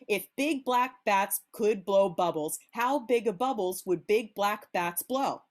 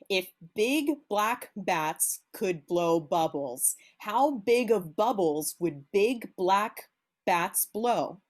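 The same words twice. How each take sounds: First: It is said very fast. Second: It is said slowly.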